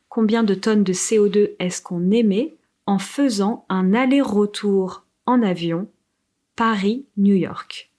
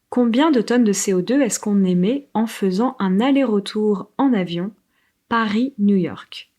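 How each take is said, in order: First: It is said at a slower pace. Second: It is said at a quicker pace.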